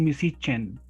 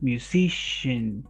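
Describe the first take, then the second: First: The middle consonant is not a clear 'sh'. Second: The middle consonant is a clear 'sh' sound. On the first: The speaker calls it wrong. "Don't say musician" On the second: The speaker calls it right. "Shin. Like making silence"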